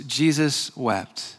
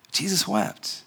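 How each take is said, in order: First: 缓慢轻声读经; slow quiet reading. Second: Almost breathless, much softer, slowly; hushed repeat. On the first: Reading the short verse. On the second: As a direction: let "Jesus wept" fall to a near hush. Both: Acted.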